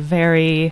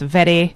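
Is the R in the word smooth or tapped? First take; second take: smooth; tapped. First: The R is a smooth, untapped R sound. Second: The R is a quick tap of the tongue. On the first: The speaker calls it wrong. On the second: The speaker calls it right.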